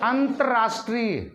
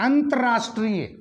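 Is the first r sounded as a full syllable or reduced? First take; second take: reduced; reduced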